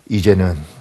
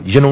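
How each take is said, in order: First: It is said weakly with little energy. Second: It is said forcefully with strong energy. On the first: An old pastor gives the blessing with failing strength. "이분들이 힘이 없으니까" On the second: A young pastor gives the blessing with vigor. "젊은 목사들이 힘있게 하니까"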